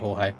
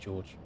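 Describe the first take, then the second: First: The name is said with Spanish sounds. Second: The name is said with American English sounds. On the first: The person is from a Spanish-speaking place. "If you're Spanish, it could be Jorge" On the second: The person is from America. "If you're American, it could be George"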